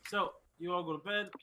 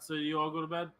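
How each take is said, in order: First: It is said in a plain, ordinary accent. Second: It is said in a southern American accent.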